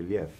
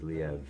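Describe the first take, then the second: First: The name is said in the Russian way. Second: The name is said to rhyme with Kiev. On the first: This is how Russians say the name. "if you're Russian, you say Liev" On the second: This is how the family says the name. "the proper pronunciation in my family is Liev. Like Kiev"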